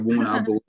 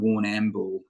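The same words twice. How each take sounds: First: The middle 'am' syllable is dropped. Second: The middle 'am' syllable is fully pronounced. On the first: This is how locals say it. "We normally don't use the A M of the uh, of the word" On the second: This follows the spelling. "you know phonetically uh, sound it out"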